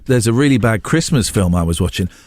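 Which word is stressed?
Christmas. The word Christmas carries the main stress. Unlike the film just mentioned, this one is a Christmas film. The speaker calls it right. "what you should have said was"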